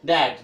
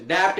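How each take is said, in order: First: डैट, the b dropped completely; silent B. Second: डैप्ट, sounding the letter that should be silent; wrong sounded letter. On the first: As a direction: say डैट with nothing before the final t. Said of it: "क्या बोलेंगे?". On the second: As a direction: say डैप्ट with an extra stop before the t. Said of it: "डैप्ट नहीं बोलेंगे". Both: Shown as a demonstration.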